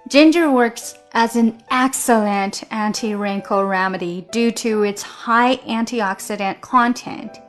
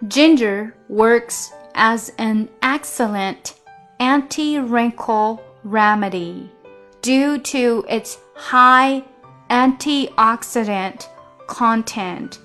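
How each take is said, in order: First: The sentence is read at normal speed. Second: The sentence is read at slow speed.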